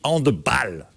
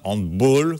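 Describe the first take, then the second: First: The word is pronounced in a Germanic way. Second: The word is pronounced in a French way. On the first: The speaker calls it right. "On dit handball. ... parce que handball, c'est germanique" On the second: The speaker calls it wrong. "Et non pas handball, comme dit Cerise"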